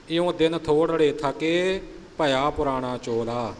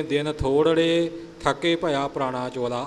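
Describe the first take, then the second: First: ਦਿਨ ਥੋੜੜੇ ਥੱਕੇ with the proper pause before ਭਇਆ; correct pause. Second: ਦਿਨ ਥੋੜੜੇ ਥੱਕੇ phrased the wrong way, as some brothers read it; imitating a misplaced pause in ਥੋੜੜੇ ਥੱਕੇ. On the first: Shown as a demonstration. Teacher shows the sangat the correct pause. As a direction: model phrasing, pause after ਥੱਕੇ. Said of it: "ਇਉਂ ਨਹੀਂ". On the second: Teacher imitates a common reciting mistake with the wrong pause. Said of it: "ਕਈ ਵੀਰ ਇਉਂ ਬੋਲ ਜਾਂਦੇ ਨੇ".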